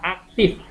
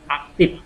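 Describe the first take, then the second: First: The word ends with an f sound. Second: The word ends with a p sound. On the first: This is the standard form. The speaker calls it right. "Ini yang baku" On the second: This is the non-standard form. The speaker calls it wrong. "yang tidak baku aktif. Apalagi kalau yang Sunda. Susah kan ngomong F"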